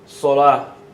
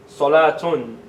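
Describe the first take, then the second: First: The final letter is pronounced as h. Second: The final letter is pronounced as t. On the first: "But if you don't pronounce it, it's going to sound like a ha" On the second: "If you pronounce it, it's going to sound like a, a ta, like solatun"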